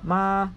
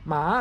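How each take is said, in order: First: The word is said on a flat level tone. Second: The word is said on a rising tone. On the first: It means to come. "the flat tone ma means to come" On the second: It means dog. "rising tone ma means a dog"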